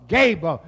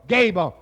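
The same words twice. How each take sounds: The two takes are said the same way.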